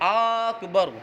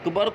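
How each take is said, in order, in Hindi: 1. पहला स्वर लंबा खींचकर पढ़ा जाता है। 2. पहला स्वर छोटा पढ़ा जाता है।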